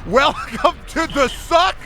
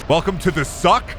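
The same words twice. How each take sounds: First: Slow, much higher, laughing through it; laughing high drawl. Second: Said in the usual way. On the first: Shown as a demonstration. To a friend, savouring the achievement name, laughing and stretched. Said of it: "The game just got so much fucking better".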